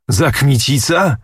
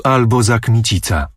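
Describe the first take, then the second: First: Higher, sneering repeat of the name; scornful echo. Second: Said in the usual way. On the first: A narrator's reading. Prince mocks uncle's choice of Kmicic, sneering. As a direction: throw the name back with contempt.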